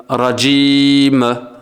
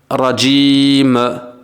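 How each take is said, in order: No difference in how they are said.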